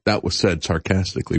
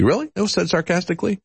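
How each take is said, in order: First: Said in the usual way. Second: High-pitched disbelieving question; incredulous echo. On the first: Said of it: "President Trump said". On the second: Real, not acted. Host questioning the President's excuse, incredulous. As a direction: throw it back as a doubting question, pitched up. Host doubts the quote just read.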